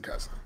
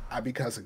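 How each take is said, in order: First: Cussing whispered, much softer. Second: Soft warning. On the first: Repeating the warning to his mama, in a whisper. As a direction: drop the word cussing to a hush. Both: Retold or imitated. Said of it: "I warned you up front".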